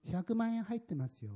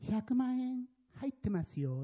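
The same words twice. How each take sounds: First: Tossed-off remark. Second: Slow, offhand line tossed aside; curt flat remark. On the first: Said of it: "こういうふうにして、ポンって投げ捨てるような感じで". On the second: Blind man handing over the envelope, offhand and curt. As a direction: say it without looking, indifferent. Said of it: "なんて言ったか". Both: Retold or imitated.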